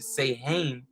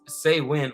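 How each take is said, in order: First: The word is said with an audible middle 'h'. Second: The word is said like 'sow-in' without 'h'. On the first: The speaker calls it wrong. "we're probably tempted to pronounce it" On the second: The speaker calls it right. "it is actually pronounced as"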